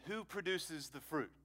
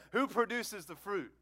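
First: Said in the usual way. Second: "Who produces the fruit" pitched higher, pressing for an answer; raised, punchy "Who produces the fruit"; emphatic repeated question. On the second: Real, not acted. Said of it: "I'm gonna ask it again".

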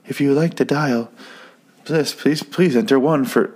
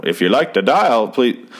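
First: Higher-pitched automated phone menu, lightly mimicked; automated system. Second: Lightly voiced old-time operator; a hint of vintage switchboard operator; old-timey operator. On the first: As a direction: imitate a recorded phone prompt. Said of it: "is it one automated system". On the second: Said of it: "not o-, that old-timey sounding".

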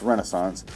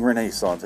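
First: "Renaissance" said REN-uh-sance, stress on the first syllable, middle vowel reduced; correct pronunciation. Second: "Renaissance" said ren-AY-sance, stress and a long AY on the second syllable; mock the annoying "Renaissance" as ren-AY-sance; disliked pronunciation. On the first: Podcaster correcting listeners, "Renaissance" said plainly as REN-uh-sance. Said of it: "It's Renaissance". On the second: Podcaster mimicking the festival crowd's "Renaissance", long AY. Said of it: "stop saying Renaissance". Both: Shown as a demonstration.

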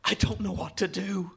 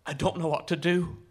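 First: Higher, more pressing urgent plea; anxious, pleading urgency; urgent rasp. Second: Mildly urgent plea, rising at the end; a touch of raspy urgency; a boy urgently at a loss; urgent rasp. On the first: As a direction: raise the pitch with urgency, as a boy at a loss. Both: A narrator's reading. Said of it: "his voice a rasp of urgency".

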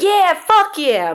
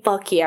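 First: High, slow, drawn-out pumped cheer; mock hyped cheer. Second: Said in the usual way. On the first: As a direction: play an overexcited fan pumping a fist. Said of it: "they might be like". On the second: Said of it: "I'm gonna think they're saying".

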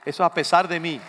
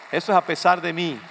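Both takes have the same delivery.

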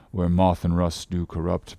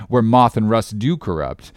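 First: Soft, low scripture mumble; mumbling to himself. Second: Said in the usual way. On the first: A narrator's reading. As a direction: murmur it privately, low and soft. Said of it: "went on mumbling to himself". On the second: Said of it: "thought I".

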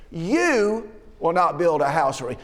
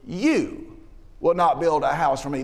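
First: "You" stressed and falling, the rest read evenly; YOU, not anyone else, said with weight. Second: Said in the usual way. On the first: Shown as a demonstration. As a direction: lean on "You" to single out David. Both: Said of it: "you" is emphatic".

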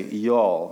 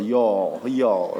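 First: Said in the usual way. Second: Texas-drawled "Y'all". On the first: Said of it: "look at your neighbor and say". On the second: Shown as a demonstration. Pastor teaching congregation a Texan word, Texas drawl. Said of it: "with a Texas drawl".

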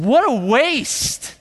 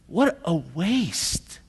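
First: Loud, high, drawn-out indignation; mad. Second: Slow, drawn-out disapproval; mad. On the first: Disciples seeing the ointment poured out, mad. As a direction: stretch it out in angry protest. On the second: Disciples repeating their verdict on Mary, indignant. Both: Acted. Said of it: "No, they were mad".

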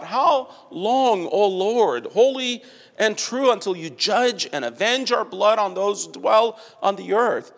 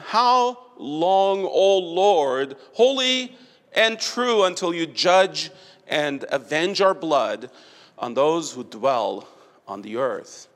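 First: Lifted, ringing plea to God; raised pleading cry. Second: Solemn plea fading. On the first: Stephen's soul in heaven crying to God, raised pleading cry. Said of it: "in heaven today cries out". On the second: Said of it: "cried out with a loud voice". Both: Retold or imitated.

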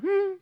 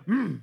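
First: Mock sulking "hmm"; little pouty child's grunt; sulky grunt. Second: Mock angry "hmm"; cross little child's grunt; mad grunt. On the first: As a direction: imitate a pouting kid's hum. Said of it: "So it went from". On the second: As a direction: imitate a fuming kid's huff. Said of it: "Then he got mad".

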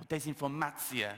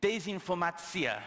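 First: Said in the usual way. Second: Slow, higher "desinformatia"; "desinformatia" drawn out, pitched up, ending on a fall; careful foreign pronunciation. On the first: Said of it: "I'm not entirely certain I'm putting the right emphasis". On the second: Shown as a demonstration. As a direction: sound out "desinformatia" slowly as an attempted Russian word. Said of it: "I'm fairly confident that you pronounce it".

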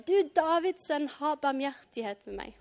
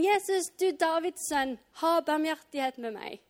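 First: Understated repeated plea, raised at the start; mildly louder call. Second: Higher-pitched, restrained cry for mercy; calling out. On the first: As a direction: read an insistent cry, easing off at the end. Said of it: "ropte enda høyere". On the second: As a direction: read a plea as a mild call. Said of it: "Da ropte han". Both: A narrator's reading.

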